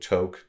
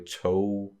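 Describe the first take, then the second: First: The word ends with a hard G sound. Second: The word ends in a vowel, no hard G. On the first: The speaker calls it wrong. "you might be tempted to pronounce it talk or to toke, to, like to pronounce the G" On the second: The speaker calls it right. "it's kind of like a flat G in a way"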